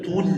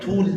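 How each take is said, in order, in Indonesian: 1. Suku katanya satu 'tul' pendek. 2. Suku katanya satu 'tul' pendek.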